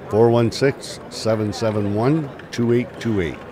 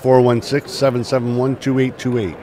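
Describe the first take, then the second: First: The number is said more slowly. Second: The number is said at normal, quick speed.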